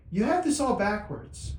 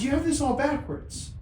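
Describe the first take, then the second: First: Slightly raised, slow divine voice; voice of God. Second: Much higher, solemn divine voice; voice of God. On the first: God correcting the father, slow and lightly raised. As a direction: speak slowly as God. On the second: God rebuking the father, high-pitched divine voice. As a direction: play God's voice high and deliberate. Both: Retold or imitated. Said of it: "I wouldn't talk like this".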